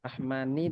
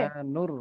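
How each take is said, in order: First: The word ends with an 'ir' sound. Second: The word ends with an 'ur' sound. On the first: The speaker calls it wrong. "রহমানির বলতেছো, নূর না বলে" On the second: The speaker calls it right. "রহমানুর রহিম"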